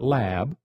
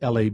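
First: It is spoken as one short word. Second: Each letter is spoken separately, L-A-B. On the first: The speaker calls it wrong. "and not lab" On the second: The speaker calls it right. "its preferred pronunciation is LAB"

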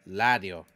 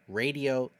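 First: The word begins with an L sound. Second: The word begins with an R sound. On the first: "It would be pronounced la" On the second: "that is radio"

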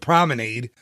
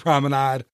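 First: The ending rhymes with lemonade. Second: The ending does not rhyme with lemonade. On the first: "It's like lemonade, so Promenade" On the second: "but it could be Promenade"

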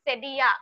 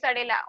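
First: The middle consonant is pronounced as a Y sound. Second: The middle consonant is pronounced as an L sound. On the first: The speaker calls it right. "it's सेडिया the double एल becomes य नॉट ला" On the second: The speaker calls it wrong. "please don't call it सडेला"

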